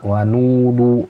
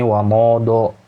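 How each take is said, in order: First: The vowels are full, rounded 'oo' sounds. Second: The vowels are open 'oh' sounds. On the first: The speaker calls it right. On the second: The speaker calls it wrong.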